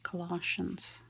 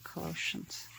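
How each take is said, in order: First: Colossians as some other people pronounce it; alternative pronunciation of Colossians. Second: Colossians with a long O in the second syllable; customary pronunciation of Colossians. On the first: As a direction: say Colossians the other way, short open second vowel. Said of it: "some people pronounce it". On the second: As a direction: say Colossians as kuh-LOH-shuns. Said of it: "We always pronounced it". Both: Shown as a demonstration.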